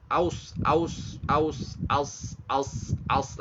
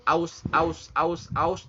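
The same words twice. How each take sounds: First: AUS shrinking toward a heavy "os", no U; sad, U dropped. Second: Said in the usual way. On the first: Shown as a demonstration. Teacher's trick for learners, aus turned into sad. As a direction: repeat AUS without saying the U. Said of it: "U-nya jangan disebut". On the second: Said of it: "Kalau ibu ngomong kata aus".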